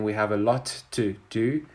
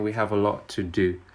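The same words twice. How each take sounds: First: Each word is said separately and carefully. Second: The words run together in connected speech. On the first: The speaker calls it wrong. "I'm not saying" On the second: The speaker calls it right. "We're saying"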